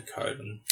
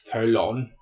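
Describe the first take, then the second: First: Said in the usual way. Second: "Colon" drawn out as koh-LON; Megamind. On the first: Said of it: "when I say colon". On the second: Shown as a demonstration. Host likening himself to a cartoon villain, "Colon" said koh-LON. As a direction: give "Colon" a full LON, not a reduced ending. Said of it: "You know Megamind?".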